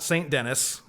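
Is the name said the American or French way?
American. The name is said with an American-style pronunciation. The speaker calls it wrong. "not Saint Denis. I'm a filthy American"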